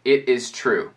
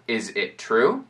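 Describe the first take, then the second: First: "It is true" falling at the end; statement intonation. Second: "Is it true" rising on true; question intonation. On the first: Teacher comparing with the question, statement intonation. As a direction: affirm "It is true", closing downward. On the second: Teacher comparing with the statement, question intonation. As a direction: ask "Is it true", lifting the last word. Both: Shown as a demonstration. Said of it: "seria entendido a diferença entre".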